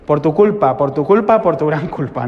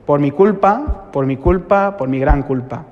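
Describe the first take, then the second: First: Imitated confession slip, "tu" for "mi"; mock penitential recitation. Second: Slow liturgical recital of "Por mi culpa"; penitential recitation. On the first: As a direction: chant the botched confession in three even beats. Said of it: "si estaba medio dormido, decías". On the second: Retold or imitated. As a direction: recite the confession in measured, drawn-out phrases. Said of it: "llega el momento que dices".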